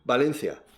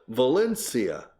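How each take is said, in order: First: It starts with a b sound, Spanish style. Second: It starts with a v sound, English style. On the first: The speaker calls it wrong. "they always say Valencia con B y con C" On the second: The speaker calls it right.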